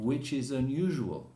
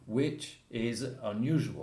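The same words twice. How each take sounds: First: The words run together without breaks. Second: Each word is said separately with stress. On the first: "normally he will say" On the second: "Unless you want to stress, like Donald Trump"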